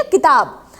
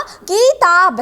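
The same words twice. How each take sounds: First: Said in the usual way. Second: किताब drawn out as "kii-taab"; long vowel demo. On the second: Shown as a demonstration. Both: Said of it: "दीर्घ में दोगुना समय लगता है".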